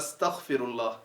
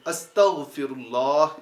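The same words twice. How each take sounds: First: The middle consonant is a harsh, scraping kh sound. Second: The middle consonant is a voiced, gargled gh sound. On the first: The speaker calls it wrong. "तो वो खा पढ़ देते हैं" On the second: The speaker calls it right. "गैन जब अस्तगफिरुल्लाह इस तरह पढ़ना है"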